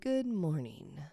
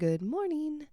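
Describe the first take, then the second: First: The voice falls at the end. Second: The voice rises at the end.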